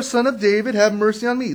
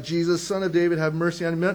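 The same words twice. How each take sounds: First: Loud, higher-pitched plea; crying out. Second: Said in the usual way. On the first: A narrator's reading. Blind man calling to Jesus, insistent crying out. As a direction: call out insistently over objections. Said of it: "He cried out all the more". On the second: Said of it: "So he began to cry out".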